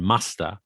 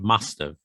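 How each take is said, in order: First: Have is reduced to a short uh sound. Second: Both words are said fully and clearly. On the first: "or even muster" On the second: "Same with must have"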